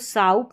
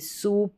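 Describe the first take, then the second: First: The vowel sounds like 'ow'. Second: The vowel sounds like a long 'oo'. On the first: The speaker calls it wrong. "साउप नहीं" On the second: The speaker calls it right. "सूप पढ़ा"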